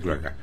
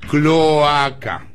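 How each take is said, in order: First: The O vowel is dropped or blurred. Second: The O vowel is clearly pronounced. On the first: The speaker calls it wrong. "usted dice cloaca" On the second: The speaker calls it right. "Con O, cloaca"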